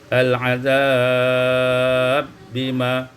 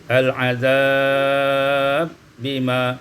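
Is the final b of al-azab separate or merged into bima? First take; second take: merged; merged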